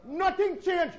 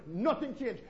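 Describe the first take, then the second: First: "nothing" punched high and loud, then falling; stress on nothing. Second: Said in the usual way. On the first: Acted. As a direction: hit "nothing" hard and high.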